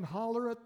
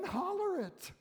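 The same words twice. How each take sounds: First: Said in the usual way. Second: High-pitched holler. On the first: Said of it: "then holler it". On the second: Shown as a demonstration. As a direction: holler it out, pitch leaping far up. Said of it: "where you can holler it".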